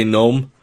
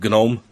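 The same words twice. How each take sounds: First: "gnome" said as "nome", g silent. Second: "gnome" said as "guh-nome"; sounded g. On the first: Explaining own habit of pronunciation, silent g in "gnome". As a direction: say "gnome" with no g sound. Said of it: "I tend to say gnome". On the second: Giving the version they avoid, hard g sounded in "gnome". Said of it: "instead of gnome". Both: Shown as a demonstration.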